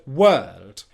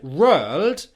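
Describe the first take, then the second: First: The first sound is a W sound. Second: The first sound is an R sound. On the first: The speaker calls it right. "instead of the word world" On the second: The speaker calls it wrong. "he pronounced it as an R"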